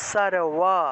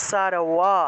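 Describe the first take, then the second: No difference in how they are said.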